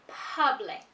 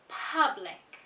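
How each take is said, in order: No difference in how they are said.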